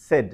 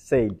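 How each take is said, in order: First: "said" as "sed", short e; correct pronunciation. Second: "said" as "sayd", long "ay"; mispronounced. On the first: Teacher contrasting right with wrong, short-vowel pronunciation. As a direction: rhyme "said" with "bed". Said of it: "not said". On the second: Teacher showing what not to say, mispronounced. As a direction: rhyme "said" with "made". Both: Shown as a demonstration.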